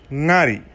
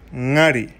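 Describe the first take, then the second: No difference in how they are said.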